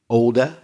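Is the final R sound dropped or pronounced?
dropped. The final r sound is dropped. "I should say uh in Oxford English"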